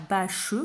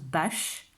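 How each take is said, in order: First: "bâche" said as bâ-cheu, final e sounded; two syllables. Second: "bâche" in one beat, ending on sh; one syllable. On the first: Teacher contrasting written with spoken form, two-syllable version. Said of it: "on dit pas bâche quand on parle". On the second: Teacher giving the spoken form, single syllable. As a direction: leave the final e of "bâche" silent. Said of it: "on dit bâche". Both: Shown as a demonstration.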